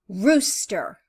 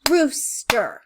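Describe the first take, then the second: First: Said in the usual way. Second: Rooster split into two beats, ROOS, then STER; syllable by syllable. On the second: Shown as a demonstration. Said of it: "Let's listen".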